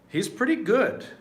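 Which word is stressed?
good. The emphasis falls on the word good. He is very good. "If you put the emphasis on good"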